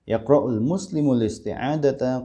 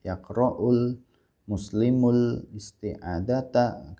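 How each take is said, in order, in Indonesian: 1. Kalimat itu dibaca cepat. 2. Kalimat itu dibaca lambat. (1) "kenapa saya bacanya cepat?" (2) "jangan pelan-pelan"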